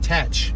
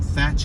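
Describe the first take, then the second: First: The word begins with a plain t sound. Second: The word begins with a th sound. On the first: "It might be Tatch" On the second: "we're just going to pronounce the th"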